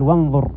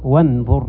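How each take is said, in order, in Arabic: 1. يتصل 'wa' مباشرة بصوت 'n'. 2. يتصل 'wa' مباشرة بصوت 'n'.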